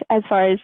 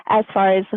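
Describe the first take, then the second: No difference in how they are said.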